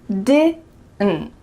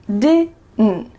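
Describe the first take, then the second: No difference in how they are said.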